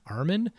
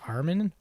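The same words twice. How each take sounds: First: The name ends with an 'n' sound. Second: The name ends with an 'n' sound.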